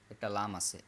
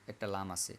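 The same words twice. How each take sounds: The two takes are said the same way.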